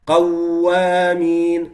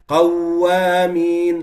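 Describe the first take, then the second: Both takes have the same delivery.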